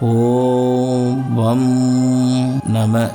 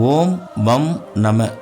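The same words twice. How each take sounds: First: The m sound is pressed with extra force. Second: The m sound is said plainly, without extra force.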